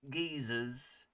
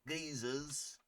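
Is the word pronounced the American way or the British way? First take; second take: British; British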